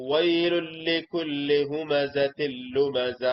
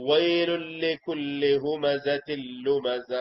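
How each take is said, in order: The two takes are said the same way.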